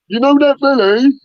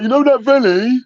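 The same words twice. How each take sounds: First: Loud dopey voice. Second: High, loud dopey voice. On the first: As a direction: say it dumb and loud. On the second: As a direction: ham it up like a dim mate. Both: Retold or imitated. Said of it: "This fucking loud dopey voice".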